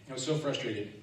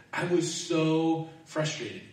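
First: Said in the usual way. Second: Slow, higher, stretched complaint; drawn-out frustration. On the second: Shown as a demonstration. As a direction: stretch it out, exasperated.

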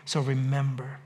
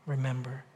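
First: A quiet, lowered plea; soft, lower remember. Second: Much softer, lower, almost breathed; near-silent remember. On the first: Pastor urging the congregation to remember, softly. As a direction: let it sink in, softer and lower. Closing plea, softening to the end. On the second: Pastor's last hushed word to the congregation, barely audible. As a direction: let the word fade to nearly nothing. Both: Real, not acted.

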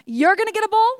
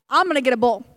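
First: Pitched higher, toward them; higher "You're gonna get a bull"; pointing at them. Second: Pitched lower, toward himself; pointing at self. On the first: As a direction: lift the voice for "you". Elijah pointing at the prophets. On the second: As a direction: drop the voice for "I'm". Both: Retold or imitated.

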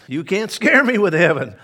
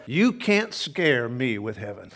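First: Louder, emphatic repeat. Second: Said in the usual way. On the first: Shown as a demonstration. Preacher repeating the line to the congregation, louder and punchier. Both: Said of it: "I say this morning as well".

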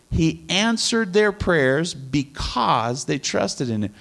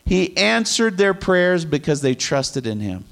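First: Slow re-reading, leaning on "because"; stress on because. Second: Said in the usual way. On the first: Shown as a demonstration. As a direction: draw out "because" as the key word. Repeats phrase to stress reason.

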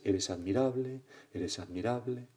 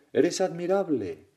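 First: Repeated call, trailing off in volume; imitated echo. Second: High, loud, drawn-out call; father's acted shout. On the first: Mountain returns the father's words, fading echo. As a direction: echo the praise back, fading away. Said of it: "el eco devuelve sus palabras". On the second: Father intervenes for his upset son, loud drawn-out shout. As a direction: shout praise slowly across the mountain. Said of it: "y, y grita".

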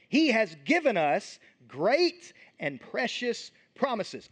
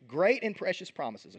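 First: Each word of "great and precious promises" drawn out slowly; slow emphatic reading. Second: Said in the usual way. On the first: Shown as a demonstration. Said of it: "Okay, great and precious promises".

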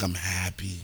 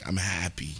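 First: A little tipsy and content; happily buzzed, drink in hand; while sipping a drink. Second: Tipsy and content; while sipping a drink. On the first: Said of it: "I sound like I'm drunk". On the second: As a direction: say it with a drink in hand. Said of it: "So if you hear me drink". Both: Real, not acted.

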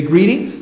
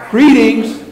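First: Said in the usual way. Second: High, projected greeting; called out to everybody. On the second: Shown as a demonstration. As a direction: hail the whole congregation. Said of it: "look out at everybody and go".

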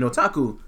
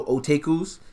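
First: Said in the usual way. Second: "otakus" said as oh-TAY-kooz; mispronounced otakus. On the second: Retold or imitated. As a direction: mimic the wrong "otakus", with TAKE in the middle. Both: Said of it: "you couldn't even pronounce otaku".

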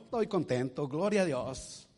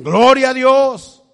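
First: Content praise. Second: Loud, high, drawn-out "Gloria a Dios"; shouted praise. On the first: Same believer now content. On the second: Believer shouting praise after losing his house. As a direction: cry "Gloria a Dios" out slowly at full voice. Voicing Christians praising God despite loss. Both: Acted.

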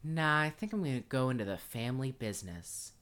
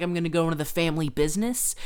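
First: Said in the usual way. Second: Fast, loud and eager; hammed-up cheerful kid, louder; mock eager kid. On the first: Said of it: "and goes". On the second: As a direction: rattle it off like an excited kid. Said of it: "now he's like".

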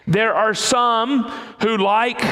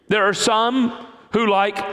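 No difference in how they are said.

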